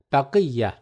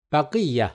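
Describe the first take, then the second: No difference in how they are said.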